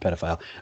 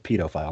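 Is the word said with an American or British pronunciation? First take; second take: American; British. First: It is said with an American pronunciation. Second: It is said with a British pronunciation. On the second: "That's how the British people pronounce it"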